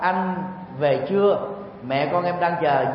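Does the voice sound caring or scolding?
caring. It is said in a calm, caring tone. The wife lovingly waits for her husband. The speaker calls it right. "thì quý vị thấy đây là một cái sự quan tâm"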